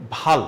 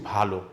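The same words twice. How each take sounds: First: ভাল said without a final vowel, bhal; ভাল read as written, ending on ল; spelled-out form. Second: ভালো said with a final o, bhalo; ভালো ending on a clear o sound; correct reading. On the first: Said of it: "কিন্তু আমরা উচ্চারণ করছি ভালো". (ভাল লেখার মতো, শেষে ও ছাড়া) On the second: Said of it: "উচ্চারণ করছি ভালো". (ভালো শেষে ও-কার দিয়ে) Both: Shown as a demonstration.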